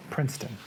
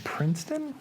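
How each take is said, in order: First: PRINCETON falling, settled and lower; softer, low PRINCETON with a final fall; confirming PRINCETON. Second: PRINCETON rising like a question; PRINCETON? with an unsure upward lift. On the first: Confirms the name after querying it. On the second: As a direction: say PRINCETON as if checking, voice going up. Unsure of the name, then confirms. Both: Real, not acted.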